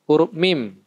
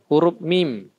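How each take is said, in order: The two takes are said the same way.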